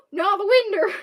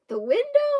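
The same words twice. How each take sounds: First: "winder" ending in -er; loud, raised, insisting on "winder"; insistent country pronunciation. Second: "window" with a clear -ow ending; high, loud, questioning "window"; incredulous correction. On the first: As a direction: correct it firmly to "winder". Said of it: "never heard anyone say winder". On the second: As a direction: check the word "window" in disbelief. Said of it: "I was like". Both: Retold or imitated.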